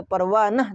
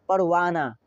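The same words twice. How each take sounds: First: परवानह ending in short a plus h; final h wrongly sounded. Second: पड़वाना as parvaanaa, ending in open aa; silent final h. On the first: Teacher showing learners what not to say, h sounded. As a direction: end परवानह on an audible h. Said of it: "तो नहीं बोले". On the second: Teacher showing learners the accepted form, h silent. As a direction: end पड़वाना on long aa, no h. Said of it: "अलिफ लगा दिया". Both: Shown as a demonstration.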